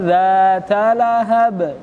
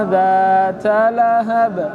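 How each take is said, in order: No difference in how they are said.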